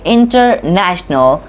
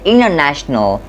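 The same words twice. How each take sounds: First: The T after the N is pronounced. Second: The T after the N is dropped. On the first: The speaker calls it wrong. "We don't say international" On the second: The speaker calls it right. "a T between an N and a vowel often gets removed"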